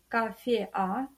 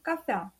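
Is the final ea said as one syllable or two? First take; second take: two; one. First: The final e and a form separate syllables. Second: The final e and a glide into one syllable. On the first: The speaker calls it wrong. "мы не произносим кафе-а" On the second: The speaker calls it right. "Еа читаем слитно"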